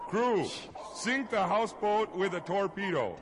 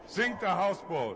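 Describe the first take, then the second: First: Loud high captain's command, "Crew" called out; shouted order. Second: Loud barked captain's command of "Sink"; shouted order. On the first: Captain redoes the order to his crew, a loud high shout. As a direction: bellow the full order across the deck. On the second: Captain shouts to his crew, a loud barked command. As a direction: yell it to the crew like a ship's captain. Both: Acted.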